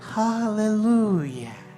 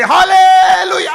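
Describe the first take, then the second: First: It is said quietly. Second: It is said loudly.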